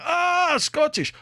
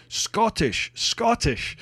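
First: Scottish in a high, hammed-up Russian accent; delighted Russian accent, Scottish drawn out and falling. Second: Scottish said higher, set firmly apart from English; proud, pointed Scottish, falling at the end; insisting Scottish. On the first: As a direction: imitate the Russian worker catching on in a Russian accent. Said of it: "some Russian guy went". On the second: Retold or imitated. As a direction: correct them, leaning on Scottish. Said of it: "And I was like".

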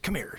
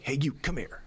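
First: Much higher, barked command; sharp drill-sergeant order. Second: A bossy bark at his son, pitched up; gruff drill instructor call. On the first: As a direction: snap it out like a sergeant. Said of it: "and I get". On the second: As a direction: call the boy over like a drill sergeant. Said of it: "me being me, I'm like". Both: Retold or imitated.

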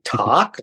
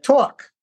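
First: "Talk" as "tahk", low and questioning; corrected "talk". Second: "Talk" as "tawk", higher and insistent; emphatic high New York "tawk". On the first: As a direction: try an open "ah" in "Talk", unsure. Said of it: "like tick tock?". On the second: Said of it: "I may have talked like that". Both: Retold or imitated.

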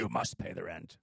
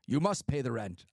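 First: Put-on low, sneering old-time radio villain; radio drama villain. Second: Radio drama villain. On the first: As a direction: growl the demand like a panto baddie. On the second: Pretend. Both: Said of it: "They had actors be like".

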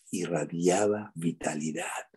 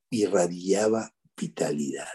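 First: Slower softer sincere. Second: Slow sincere. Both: Real, not acted.

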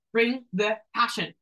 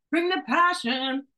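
First: Said in the usual way. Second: Higher and slower, pushing the words out with heat; rally the listener, slow and rising; fired-up rally call. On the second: Shown as a demonstration.

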